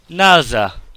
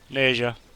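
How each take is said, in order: First: The name is pronounced the Cantonese way. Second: The name is pronounced the English way. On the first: "in Cantonese, it is" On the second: "it simply translates as Neja. That's simple"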